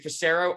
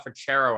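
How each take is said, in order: First: The middle consonant is an s sound. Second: The middle consonant is a ch sound. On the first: The speaker calls it wrong. "the two different ways people try to pronounce it" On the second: The speaker calls it right. "It's uh Frachero actually"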